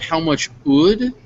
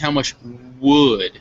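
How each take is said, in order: First: The W at the start of would is weak. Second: The W at the start of would is clear. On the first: The speaker calls it wrong. "Instead of how much would" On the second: The speaker calls it right. "it's how much would"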